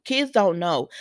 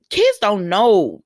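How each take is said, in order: First: Said in the usual way. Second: Put-on kids don't know said slow and louder, every word leaned on; emphatic. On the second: Shown as a demonstration. Repeating her point about Wiley, slow and emphatic.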